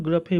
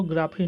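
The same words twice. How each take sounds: First: ग्राफी with a short vowel, "gruh-fee"; correct pronunciation. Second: ग्राफी with a long open "aa", "graa-fee"; wrong pronunciation shown. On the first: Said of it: "को हम लोग ग्राफी बोलते हैं". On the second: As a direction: lengthen the first vowel of ग्राफी to "aa". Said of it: "इसको ग्राफी नहीं बोलते". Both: Shown as a demonstration.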